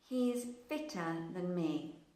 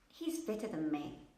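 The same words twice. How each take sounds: First: It is said very slowly, word by word. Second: It is said quickly with the words merged. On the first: "I read these sentences very slowly" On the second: "If I were to say it more quickly, it would sound more realistic"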